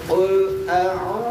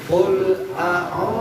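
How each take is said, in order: Both takes have the same delivery.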